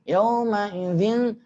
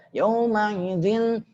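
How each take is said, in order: No difference in how they are said.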